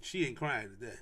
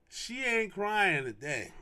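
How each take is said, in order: First: Said in the usual way. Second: "She ain't crying today" slow, with "ain't" stressed; slow emphatic. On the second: Shown as a demonstration. Dad vowing his daughter won't cry, slow emphatic stress. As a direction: draw out "ain't" slowly for emphasis.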